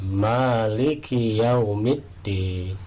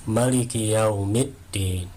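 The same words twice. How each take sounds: First: The vowel after the m is held long. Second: The vowel after the m is kept short. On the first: "bacaan mimnya dipanjangkan" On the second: "mimnya dibaca pendek"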